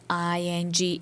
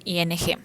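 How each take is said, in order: First: "I N G" spelled out as English letters, eye en jee; spelling "I N G" in English letter names. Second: "I N G" spelled out as Spanish letters, ee ene heh; spelling "I N G" in Spanish letter names. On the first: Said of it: "en I N G ending". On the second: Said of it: "con terminación I N G". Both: Shown as a demonstration.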